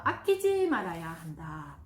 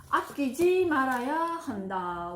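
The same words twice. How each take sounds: First: Said in the usual way. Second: 아끼지 stretched slow and loud; slow, emphatic 아끼지 말아야 한다; stress on 아끼지. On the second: Shown as a demonstration. (아끼지를 천천히 힘주어 강조) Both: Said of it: "자, 이거 별표 한 세 개 하겠습니다".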